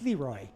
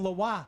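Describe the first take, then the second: First: The name is said with a northern E sound. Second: The name is said with a French pronunciation. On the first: The speaker calls it right. "a northern E kind of sound on that" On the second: The speaker calls it wrong. "if it was French"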